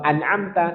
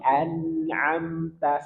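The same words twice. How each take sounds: First: The n and m sounds are cut off abruptly. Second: The n and m sounds flow on slightly. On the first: The speaker calls it wrong. "Jangan dipotong" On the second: The speaker calls it right. "sedikit alirkan"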